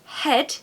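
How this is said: The vowel is a short RP e sound. "the short E in modern R P found in the word"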